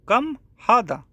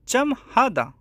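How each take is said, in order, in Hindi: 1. पहला शब्द 'k' ध्वनि से शुरू होता है। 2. पहला शब्द 'ch' ध्वनि से शुरू होता है।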